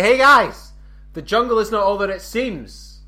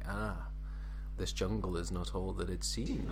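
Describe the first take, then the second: First: Loud, high announcement to the group; calling out. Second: Low, hushed murmur of discovery; whispering to himself. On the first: Explorer turning round to tell the group, calling out. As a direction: call it out to everyone, pitched right up. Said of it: "I turn around to my, like, say". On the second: Explorer holding a cable vine, whispering to himself. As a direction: say it under your breath, soft and low. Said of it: "just whispering to himself". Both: Acted.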